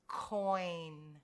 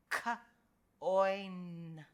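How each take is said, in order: First: Said in the usual way. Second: "K, oi, n" as separate sounds; sounded out. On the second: Shown as a demonstration. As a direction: pause after "K", then drawn-out "oi, n". Teacher sounds out coin by parts.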